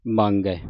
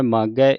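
First: ਮੰਗੈ with a nasal before g; lower, nasalised reading of ਮੰਗੈ; with bindi. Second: ਮਾਗੈ with long aa and no nasal; without bindi. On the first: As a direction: add the n sound in ਮੰਗੈ. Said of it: "ਬਿੰਦੀ ਲਾ ਕੇ ਉਚਾਰਨ". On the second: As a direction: keep ਮਾਗੈ free of any n sound. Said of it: "ਮੰਮੇ ਕੰਨਾ ਗੱਗੇ ਦਲਾਵਾਂ". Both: Shown as a demonstration.

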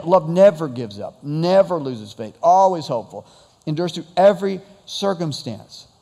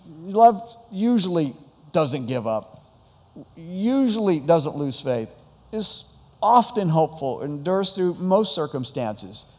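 First: NEVER and ALWAYS pressed a little louder; stress on never. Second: Slow, hedging read of usually and often; the watered-down love we settle for; softened version. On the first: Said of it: "the emphasis on those words". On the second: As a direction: say usually like a shrug. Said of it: "we substitute words in there like this". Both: Shown as a demonstration.

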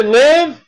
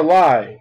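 First: "live" with a short i, rhyming with give; short-i pronunciation. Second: "live" with a long i, rhyming with five; long-i pronunciation. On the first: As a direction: say "live" as the verb, with the vowel of sit. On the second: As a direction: say "live" as in a live broadcast. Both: Shown as a demonstration. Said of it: "you can pronounce that word two ways".

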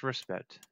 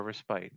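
First: Respite said as RESS-pit; first pronunciation. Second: Respite said as RESS-pite; alternative pronunciation. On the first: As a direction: say respite with a short second vowel, like "pit". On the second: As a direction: say respite with a long i, rhyming with "bite". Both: Shown as a demonstration. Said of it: "however you wanna pronounce it".

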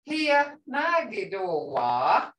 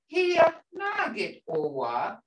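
First: "Here Nagi Dowa" slow, the closing "ah" of "Dowa" stretched; slow teacher demo, long ah at the end of "Dowa"; long final ah. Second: "Here Nagit Owa" slow, pitch lifting through "Owa"; slow Muskogee question tune, "Owa" rising. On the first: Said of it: "It ends in a ah". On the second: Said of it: "Hear that tone, guys?". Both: Shown as a demonstration.

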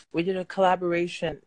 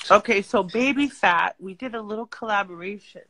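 First: Talking around a retainer; slurred by a retainer; wearing a retainer. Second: Talking around a retainer; words slurred by a retainer; wearing a retainer. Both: Real, not acted. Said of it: "I have my retainer in. So I'm talking funny".

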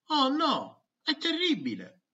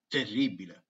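First: Higher, hammed-up oh no; mock dismay. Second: Said in the usual way. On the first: Pupil groaning about science day, in Italian. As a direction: play up the despair.

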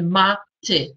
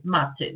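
First: "ma ty" split into two separate syllables. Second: Said in the usual way. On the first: Shown as a demonstration. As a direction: pause between "ma" and "ty". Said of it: "odczytywać te sylaby i układać z nich". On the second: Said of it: "układać z nich wyrazy".

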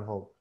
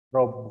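First: "hope" starting on breathed H; contrasting "hope". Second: "Rope" starting on R; correct "rope". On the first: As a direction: begin "hope" with H, not R. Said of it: "Rope bukan hope". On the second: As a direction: open "Rope" with an English R. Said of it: "change the H with an R". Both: Shown as a demonstration.

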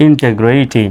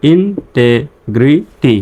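First: Said in the usual way. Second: Slow, split-up "ইনটেগ্রিটি" with gaps between syllables; teacher's slow sounding-out. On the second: Shown as a demonstration. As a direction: break "ইনটেগ্রিটি" into separate syllables for learners. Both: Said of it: "আমার সঙ্গে সঙ্গে উচ্চারণ করবেন".

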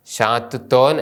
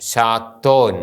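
First: ഷാത്തുത്തോൻ spelt out in full; every syllable sounded in ഷാത്തുത്തോൻ; wrong reading. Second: ഷാത്തോൻ merged with doubled t; correct reading. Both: Shown as a demonstration. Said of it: "അല്ല".

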